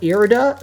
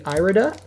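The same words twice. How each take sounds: First: The first syllable sounds like the word ear. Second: The first syllable does not sound like ear. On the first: "I think I call it Irida" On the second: "Some people say Irida"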